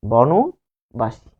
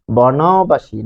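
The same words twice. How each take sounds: First: বনবাসী drawn out very slowly as bɔnobashi, middle vowel closed to o; teacher's right take: বনবাসী with bɔno-; correct pronunciation. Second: বনবাসী slowly as bɔnabaʃi, open a in the middle, marked wrong; teacher's wrong take: বনবাসী with bɔna-; wrong pronunciation. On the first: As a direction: model বনবাসী syllable by syllable, very slow. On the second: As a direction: say বনবাসী the wrong way, slow, with a plain a after ন. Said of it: "বনবাসী না". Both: Shown as a demonstration.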